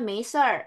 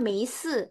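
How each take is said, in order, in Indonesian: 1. Kata ini diucapkan dengan bunyi r tambahan. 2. Kata ini diucapkan tanpa bunyi r tambahan. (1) "Mereka bilangnya measure" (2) "Padahal kita bilangnya meise"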